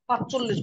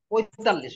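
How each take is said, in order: First: The middle sound is 'ch', as in 'panch-chollish'. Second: The middle sound is 'y-t', as in 'poytallish'. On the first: The speaker calls it wrong. "পাঁচচল্লিশ বলে, এটা ভুল" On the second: The speaker calls it right. "পঁয়তাল্লিশ হবে"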